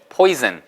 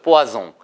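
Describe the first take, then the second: First: It is pronounced the English way, poy-zun. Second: It is pronounced the French way, pwa-song.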